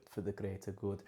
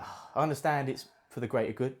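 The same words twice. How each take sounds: First: Softer, murmured chant of "for the greater good", like a village cult; a lightly done Hot Fuzz villager chant with a mock wrong accent; Hot Fuzz quote. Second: Said in the usual way. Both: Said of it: "Hot fuzz, hot fuzz quote there".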